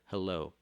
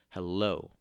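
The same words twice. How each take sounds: First: Said in the usual way. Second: "hello" with a loud punched "lo"; light "hel", louder stressed "lo" in "hello"; stress on second syllable. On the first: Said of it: "It goes unstressed, stressed". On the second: Shown as a demonstration. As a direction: hit the end of "hello" hard. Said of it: "it goes unstressed, stressed".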